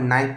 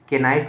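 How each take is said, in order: First: The word starts with an n sound, no k. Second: The word starts with a sounded k before n. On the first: The speaker calls it right. "इसको नाइफ पढ़ेंगे क्योंकि के हमेशा silent है" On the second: The speaker calls it wrong. "के नाइफ नहीं पढ़ेंगे"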